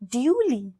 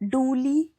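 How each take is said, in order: First: It begins with a 'dyoo' sound. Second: It begins with a plain 'doo' sound. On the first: The speaker calls it right. "इसकी correct pronunciation है ड्यूली" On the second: The speaker calls it wrong. "इस word को डूली नहीं बोलना है"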